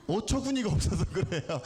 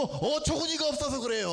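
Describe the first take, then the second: First: Said in the usual way. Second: 어처구니가 stressed, raised and stretched; higher, insistent emphasis on 어처구니가; emphatic correction. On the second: Shown as a demonstration. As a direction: hit 어처구니가 hard to correct the term. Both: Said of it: "어이가 없는 건 아니고".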